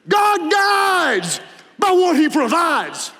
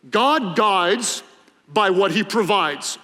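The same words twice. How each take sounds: First: It is said in a dramatic, preacherly voice. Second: It is said in a plain, ordinary speaking voice. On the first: "If you're really good preacher, you say it like this" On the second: "There's a preacher saying that goes like this"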